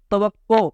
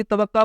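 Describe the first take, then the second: First: توقع said as ta-waq-qo; corrected ending. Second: توقع said as ta-waq-qa; common mispronunciation. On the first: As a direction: end توقع on a clear "o". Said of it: "اس کو بھی توقع پڑھ جاتے". (توقع میں قاف پر پیش) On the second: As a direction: end توقع on an "a". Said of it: "پڑھ جاتے ہیں عام طور پہ". (توقع میں قاف پر زبر) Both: Shown as a demonstration.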